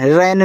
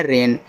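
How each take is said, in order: First: "रैन" with an open ai vowel; wrong pronunciation. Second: "रेन" with a long e; correct pronunciation. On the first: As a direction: say "रैन" with the vowel opened towards "a" in "cat". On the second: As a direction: say "रेन" with a pure long "ay" vowel. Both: Shown as a demonstration. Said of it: "रैन नहीं पढ़ना है".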